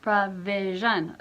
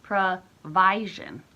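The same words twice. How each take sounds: First: Careful slow "provision" with schwa first; schwa pronunciation. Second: "provision" drawn out slowly as pro-VYE-zhun, with a long I; slow questioning "provision" with a long I; long I pronunciation. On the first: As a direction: say "provision" with a reduced "pruh". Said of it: "it's a schwa". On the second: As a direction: try "provision" with the I said like "eye". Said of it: "Why isn't it pro". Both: Shown as a demonstration.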